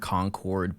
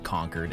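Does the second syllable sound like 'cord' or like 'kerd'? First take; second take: cord; kerd. First: The second syllable sounds like a full 'cord'. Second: The second syllable sounds like 'kerd', as in conquered. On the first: "I know that they're Concord" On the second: "as in like I conquered a castle or something"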